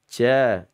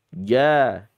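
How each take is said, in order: First: The first consonant is voiceless. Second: The first consonant is voiced. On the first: The speaker calls it wrong. "bukan ca" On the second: The speaker calls it right. "jangan dibaca hamas tapi dibacanya jahar"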